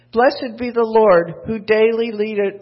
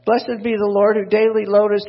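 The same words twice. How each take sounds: First: Misread verse. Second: Corrected verse. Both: Acted. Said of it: "no, that's not what I wanted".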